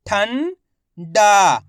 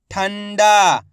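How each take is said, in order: First: ठंडा in two parts, "ठं" rising, pause, loud "डा"; very slowly sound out ठंडा piece by piece; split into syllables. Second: ठंडा joined, loud long "डा" falling; blended whole word. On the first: Teacher breaking ठंडा down for learners, syllable by syllable. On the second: Teacher showing learners the result, ठंडा blended together. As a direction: say ठंडा as one word without a break. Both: Shown as a demonstration. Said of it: "इनको आपस में मिला के पढ़ना है".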